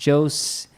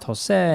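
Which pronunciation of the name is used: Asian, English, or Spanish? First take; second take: Asian; Spanish. First: The name is said with an Asian pronunciation. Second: The name is said with a Spanish pronunciation. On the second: "in Spanish is pronounced"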